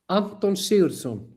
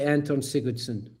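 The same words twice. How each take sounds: First: The name is said with native Icelandic sounds. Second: The name is said with English-style sounds.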